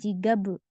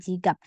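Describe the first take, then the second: First: The word ends with a released b sound. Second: The word ends with a clipped p sound. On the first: The speaker calls it wrong. "Bukan dibaca B" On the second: The speaker calls it right. "Sini dibaca P"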